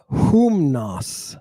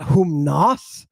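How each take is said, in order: First: "humnos" with HUM stressed and drawn out, falling after; first-syllable stress. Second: "humnos" with the second syllable, NOS, stressed and raised; wrong stress. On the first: Teacher correcting to the proper form, stress on first syllable. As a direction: hold the HUM of "humnos", then fall. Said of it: "but humnos". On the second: Teacher showing what it's not, stress on last syllable. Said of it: "Not humnos". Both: Shown as a demonstration.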